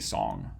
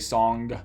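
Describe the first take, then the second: First: It ends on the nasal with no g. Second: It ends with an audible g stop. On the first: "most people just say song" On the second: "you might say song"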